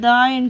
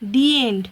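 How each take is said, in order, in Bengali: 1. 'the' শব্দটি 'thuh' এর মতো শোনায়। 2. 'the' শব্দটি 'thee' এর মতো শোনায়। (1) "আমরা কোনো দিন বলি না যে দ্য এন্ড হয়েছে"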